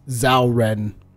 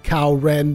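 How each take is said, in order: First: The name begins with a soft zh sound. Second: The name begins with a hard K sound. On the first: The speaker calls it right. "in Japanese, it is actually pronounced Zhao Ren" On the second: The speaker calls it wrong. "which you can probably read Kao Ren"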